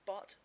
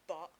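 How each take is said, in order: First: The word ends with a full T sound. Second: The word ends with a glottal stop.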